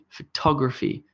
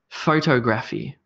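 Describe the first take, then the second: First: The stress is on the second syllable. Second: The stress is on the first syllable. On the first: "with an emphasis on the to" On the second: "with an emphasis or stress on photo and then no stress on graphy"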